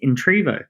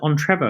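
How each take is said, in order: First: The name begins with an 'in' sound. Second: The name begins with an 'en' sound. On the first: It is the owner's intended form of the name. The speaker calls it right. "I think of it as Intrevo" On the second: It is taken from the first word of the full phrase. The speaker calls it wrong. "why do you pronounce it Entrevo? ... because it's Entrepreneur Revolution"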